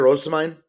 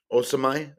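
First: Said in the usual way. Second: "Osimhen" said as oh-suh-my, no N heard; silent final N. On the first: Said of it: "you don't pronounce the N". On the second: Shown as a demonstration. Host correcting the striker's name for viewers, "Osimhen" with silent N. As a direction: drop the last consonant of "Osimhen", ending on an open "my". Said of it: "That's how you actually pronounce it".

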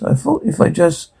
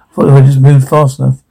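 First: Soft, under-the-breath mutter. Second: Said in the usual way. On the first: A narrator's reading. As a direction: mumble it quietly to yourself.

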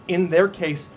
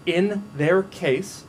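First: "in their case" louder, "their" hit; repeated emphasis. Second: "In their case" drawn out slowly and higher; slow emphatic reading. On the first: Preacher repeating the phrase for weight, louder. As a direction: punch "their". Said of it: "Listen here". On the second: Preacher stressing the verse, slow and emphatic. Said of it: "Listen here, verse four". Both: Shown as a demonstration.

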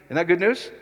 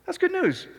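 First: Said in the usual way. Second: Much higher, joyful; elated. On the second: Real, not acted. Preacher to congregation, answering himself elated. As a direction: lift it up high with joy.

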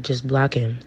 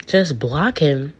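First: Said in the usual way. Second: Slow, disbelieving question with swooping pitch; incredulous echo. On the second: Retold or imitated. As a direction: stretch it out in disbelief. Her incredulous echo of father.

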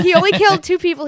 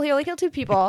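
First: Higher, louder, fast fond insistence; Team Ed insistence. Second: Said in the usual way. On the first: Retold or imitated. Speaker raised on Team Ed, echoing mom's defence eagerly. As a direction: rattle it off like a devoted fan. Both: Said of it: "I was born on Team Ed".

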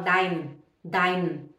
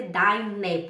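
First: Deine cut down to "dain", one syllable; wrong, E dropped. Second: Deine as two syllables, "DAI-ne"; final E sounded. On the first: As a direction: say dein with no final vowel, falling low. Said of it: "eles não falam o E no final". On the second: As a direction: voice the last vowel of deine clearly. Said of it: "tem que ter deine". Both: Shown as a demonstration.

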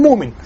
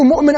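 First: مؤمن with a long oo instead of the catch; smooth مؤمن into "muumin"; without hamza. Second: مؤمن with a glottal catch after mu; with hamza. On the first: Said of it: "أنت تقول مؤمن". (نطق مؤمن بإبدال الهمزة واوًا) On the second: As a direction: break مؤمن as "mu'min". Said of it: "أنا أقول مؤمن". (نطق مؤمن بتحقيق الهمزة) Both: Shown as a demonstration.

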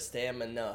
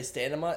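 First: Said in the usual way. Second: "stamina" said as STAN-uh-muh; "stamina" with N first and M at the end; mispronounced stamina. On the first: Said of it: "instead of stamina". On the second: Shown as a demonstration. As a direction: swap the M and N in "stamina". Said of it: "I put the M at the end instead of the N".

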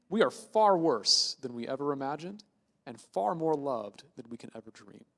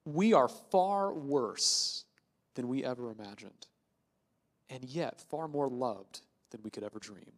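First: Said in the usual way. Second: Very slow, weighty delivery with long pauses; slow solemn quote. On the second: Shown as a demonstration. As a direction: let each phrase sink in slowly, dropping softer. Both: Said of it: "that Pastor Tim Keller has used".

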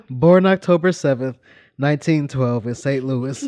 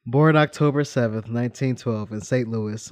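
First: Reading through giggles; cracking up mid-sentence; trying not to laugh. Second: Said in the usual way. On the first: Real, not acted. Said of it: "I'm trying to be serious here". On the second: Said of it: "Trying to be serious".

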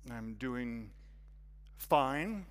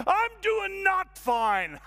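First: Low, held-back answer, "fine" lifting at the end; guarded "fine". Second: High, loud, drawn-out outburst; shouted admission. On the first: Newcomer hides his troubles from the hostess, guarded. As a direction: insist you're fine, keeping it contained. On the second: Man finally admits he is struggling, loud shout. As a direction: yell it slowly across the whole room. Confession bursts out to the room. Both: Acted.

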